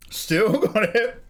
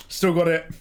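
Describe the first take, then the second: First: High, slowed, chuckling through it; laughing. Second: Said in the usual way. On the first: Real, not acted. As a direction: laugh while saying it.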